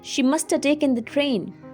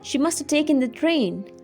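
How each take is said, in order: The two takes are said the same way.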